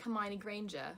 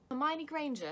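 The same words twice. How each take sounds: First: Half-hearted British schoolgirl impression; Hermione Granger. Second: High, loud British schoolgirl impression; Hermione Granger. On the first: Vlogger trying out regional accents, lightly voiced British impression. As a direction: try a light British character voice. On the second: Vlogger retrying a poor impression, hammed-up British schoolgirl voice. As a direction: push the British character voice higher and louder. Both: Shown as a demonstration. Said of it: "That wasn't actually a very good Hermione".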